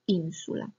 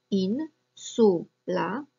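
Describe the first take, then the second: First: "insula" with the stress on IN, the rest unstressed; stress on the first syllable. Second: "in, su, la" said as three separate syllables with pauses; split into syllables. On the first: Teacher modelling Latin stress for students, stressing the first syllable. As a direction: hit the IN of "insula", then let su and la fall away. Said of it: "więc akcentujemy insula". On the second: Teacher breaking a Latin word into syllables for students. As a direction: spell out "in, su, la" one beat at a time. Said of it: "które ma trzy sylaby". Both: Shown as a demonstration.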